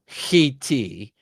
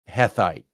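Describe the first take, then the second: First: The middle consonant is a t sound. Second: The middle consonant is a th sound. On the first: The speaker calls it right. "It's it's it's still Hitti" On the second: The speaker calls it wrong. "it's not Hethite"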